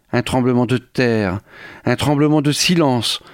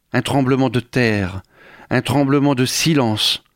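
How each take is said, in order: Both takes have the same delivery.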